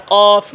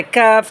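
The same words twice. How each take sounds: First: "কফ" with heavy q from the back of the tongue; thick QAF. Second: "কাফ" with light front k; open, thin "kaaf" for "কাফ"; thin KAF. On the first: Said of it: "মোটা আওয়াজ". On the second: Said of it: "চিকন আওয়াজ". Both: Shown as a demonstration.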